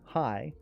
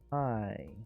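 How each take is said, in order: First: It is said in a glad, delighted way. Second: It is said in a mocking, sarcastic way. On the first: The speaker is truly happy to see the person. "but now it's, oh, it's you. Yay. My day's complete" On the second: The speaker is not happy to see the person.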